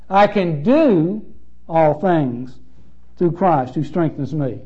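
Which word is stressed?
do. The stress falls on the word do.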